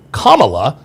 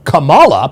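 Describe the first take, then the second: First: "Kamala" as KAH-muh-luh, first syllable stressed; "Kamala" accented on the opening syllable. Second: "Kamala" as kuh-MAH-luh, middle syllable stressed; "Kamala" accented on the middle syllable. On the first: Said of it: "putting the accent on the first syllable". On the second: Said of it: "instead of the middle". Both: Shown as a demonstration.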